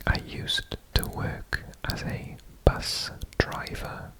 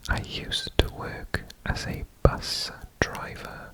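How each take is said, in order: Both takes have the same delivery.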